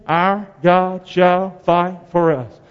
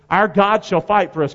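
First: "Our God shall fight for us" drawn out slowly, GOD stressed with a falling tune; slow group recitation. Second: Said in the usual way. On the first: Shown as a demonstration. Preacher leading the congregation in slow unison recitation. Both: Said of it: "Can you say that with me?".

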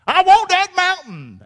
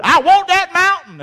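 First: Slow, high and loud with WANT stressed; determined claim. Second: Eager claim. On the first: Caleb repeating I want that mountain, slow and emphatic. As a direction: stretch out I want that mountain like an old rascal. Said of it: "Caleb was". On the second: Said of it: "Joshua and Caleb said". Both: Acted.

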